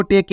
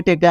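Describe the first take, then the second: First: टेक as "te-ke", final e sounded; letter-by-letter misreading. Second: टेक as one beat, silent e; correct reading. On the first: Teacher showing what not to read, टेक as "te-ke". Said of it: "आपको टेक नहीं पढ़ना". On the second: Teacher giving the right reading, टेक as "tek". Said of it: "आपको क्या पढ़ना है?". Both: Shown as a demonstration.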